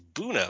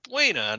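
First: The name is said with an English pronunciation. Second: The name is said with a Spanish pronunciation. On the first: This is how the locals say it. The speaker calls it wrong. "it's Buna" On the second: This follows the word's Spanish origin. The speaker calls it right. "B-U-E-N-A is a Spanish and you pronounce it buena"

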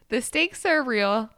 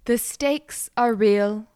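First: It is read in a plain, ordinary voice. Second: It is read in a solemn, preachy put-on voice.

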